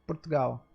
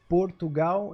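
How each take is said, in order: First: It is said with European vowels reduced. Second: It is said with Brazilian vowels kept.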